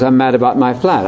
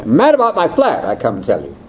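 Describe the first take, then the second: First: Said in the usual way. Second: A hint of a Brit proudly announcing his "flat"; lightly voiced British speaker. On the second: Speaker quoting a Brit about his flat, lightly British. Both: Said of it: "the classic one is".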